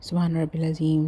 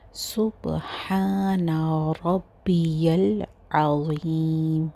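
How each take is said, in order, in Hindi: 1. यह वाक्यांश जल्दी-जल्दी बोला गया है और आवाज़ें एक-दूसरे में मिल जाती हैं। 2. यह वाक्यांश सावधानी से बोला गया है और हर आवाज़ साफ़ है।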